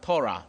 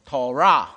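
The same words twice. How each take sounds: First: The stress is on the first syllable. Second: The stress is on the second syllable. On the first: The speaker calls it wrong. "读错了。" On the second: The speaker calls it right. "重音是在第二个音节的，所以应该是Torah"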